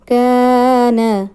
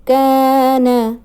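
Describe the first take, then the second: First: The vowel after the k is long. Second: The same.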